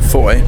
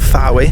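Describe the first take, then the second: First: The name is said as one syllable, rhyming with boy. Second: The name is said as two syllables, following the spelling. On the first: The speaker calls it right. "which is pronounced Foy" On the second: The speaker calls it wrong. "not Fowy, like it's spelled"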